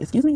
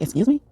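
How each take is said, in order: First: Much higher, mock-offended "Excuse me?"; God playfully insulted, voice jumps up; indignant "excuse me". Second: Higher, indignant "Excuse me?"; offended "excuse me". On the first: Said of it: "He'd be like". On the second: Retold or imitated. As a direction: play God taking offence, pitched up. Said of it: "God came back and was like".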